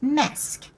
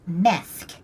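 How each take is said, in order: First: The consonant before the k is an s sound. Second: The consonant before the k is a th sound. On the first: It sounds like a Latin American accent. "most of the other characters in this game will call it Mesk" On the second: It sounds like a Spanish accent. "You will note her pronunciation of Methk"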